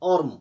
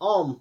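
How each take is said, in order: First: The r sound is clearly pronounced. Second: The r sound is left silent. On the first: The speaker calls it wrong. "पढ़ते हैं हम ऑर्म, तो वो गलत है" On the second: The speaker calls it right. "पढ़ेंगे हम ऑम"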